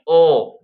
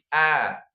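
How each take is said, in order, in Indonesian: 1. Vokalnya tebal dan membulat, seperti o. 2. Vokalnya tipis dan terbuka, seperti a. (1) "jangan o, bo, to, salah ya" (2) "Tapi a, ba, ta; Pangkal lidahnya biasa"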